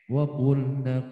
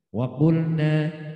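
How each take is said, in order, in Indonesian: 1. Vokal akhirnya pendek. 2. Vokal akhirnya dibaca panjang. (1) "Waqulnanya pendek, jangan dipanjang" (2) "waqulna panjang satu satu harokat lagi"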